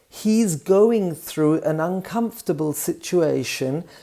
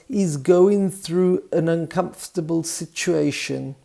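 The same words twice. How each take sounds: First: Every sound is pronounced clearly and fully. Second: Sounds are reduced and run together.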